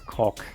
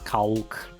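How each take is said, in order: First: The word is said without any L sound. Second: The word is said with a clear L sound. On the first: It is the English pronunciation. "but in English, it's cock" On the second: It is read the way a Russian reader would read it. "if you read it like bluntly, like in Russian"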